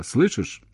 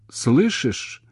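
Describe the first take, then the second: First: Said in the usual way. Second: Higher, alarmed question; frightened cry. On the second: A narrator's reading. Woman fearing he's gone, frightened cry. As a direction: check the line in rising alarm. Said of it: "Так же испуганно, как он, закричала".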